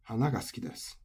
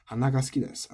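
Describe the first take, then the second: First: "hanaga suki desu" with high "na", dropping on "ga"; final-high accent, flower. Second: "hanaga suki desu" with no drop on "ga"; unaccented, nose. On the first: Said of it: "then I'm saying I like flowers". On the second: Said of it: "but it's not accented". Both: Shown as a demonstration.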